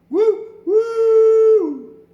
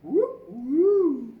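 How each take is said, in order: First: Much higher, loud hooting woo like a steam whistle; train whistle. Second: Higher, loud hooting woo; wolf whistle. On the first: Acted. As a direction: hoot it out like a goods train whistle. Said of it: "heard the goods trains whistle". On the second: Retold or imitated. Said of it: "the wolf whistle".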